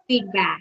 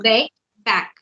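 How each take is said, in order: First: The first syllable sounds like 'feed'. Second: The first syllable sounds like 'bake'. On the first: The speaker calls it right. "Feedback. Yes, not bake back" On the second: The speaker calls it wrong. "No, bake back"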